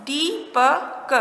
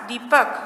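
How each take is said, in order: First: दीपक very slowly, broken into दी, प, क; syllable by syllable. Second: Said in the usual way. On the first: Shown as a demonstration. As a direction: draw out Deepak sound by sound for learners. (दीपक को तोड़कर, बहुत धीरे) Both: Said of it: "क्या शब्द बना?".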